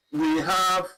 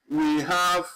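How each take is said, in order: Both takes have the same delivery.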